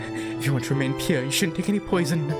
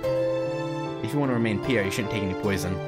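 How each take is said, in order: First: It is said in a put-on character voice. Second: It is said in the speaker's ordinary voice. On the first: "I think maybe I can do it" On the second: "I can't imagine using that voice just talking normally"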